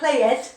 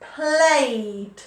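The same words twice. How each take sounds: First: The word ends in an extra id syllable. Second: The word ends in a plain d sound. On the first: The speaker calls it wrong. "Not id, not played" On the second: The speaker calls it right. "d. It's a d sound"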